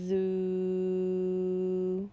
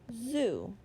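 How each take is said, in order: First: The word is stretched out slowly, sound by sound. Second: The word is said quickly as one unit. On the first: "say them slowly" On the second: "Say it fast"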